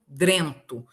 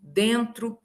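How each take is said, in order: First: "drento" com dr no começo; R transposto. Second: "Dentro" com tro no final; R na última sílaba. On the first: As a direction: diga "drento": dren-tu. ("drento" em tom mais grave, R depois do d) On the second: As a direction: diga "Dentro": den-tru. ("Dentro" com R depois do t) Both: Shown as a demonstration. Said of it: "Ele muda de lugar".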